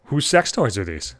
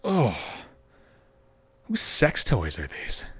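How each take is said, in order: First: Said in the usual way. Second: Ibu bertanya pelan dan rendah; a hint of a puzzled mother, slow and low; low slow mom. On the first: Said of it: "mother's line repeated". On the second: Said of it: "I hear the mother say".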